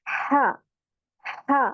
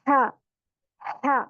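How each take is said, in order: The two takes are said the same way.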